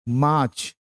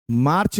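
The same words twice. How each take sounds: First: मार्च said as maach, with no r; मार्च with a silent r, long aa. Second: मार्च said with a clear r, as marrch; मार्च with the r rolled in, the way it is not said; मार्च spoken with an audible r; wrong way, r sounded. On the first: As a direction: drop the r in मार्च, saying maach. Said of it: "आर silent है इसलिए मार्च". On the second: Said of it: "मार्च नहीं होता". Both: Shown as a demonstration.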